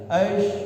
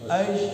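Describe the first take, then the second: Both takes have the same delivery.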